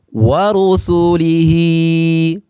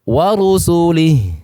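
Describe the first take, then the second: First: The final h is followed by a long vowel. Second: The word ends on a bare h sound. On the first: The reciter continues without stopping. "Awalnya panjang" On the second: The reciter stops at this word. "Apabila waqaf"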